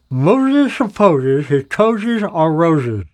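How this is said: It is spoken muffled with a pencil in the mouth.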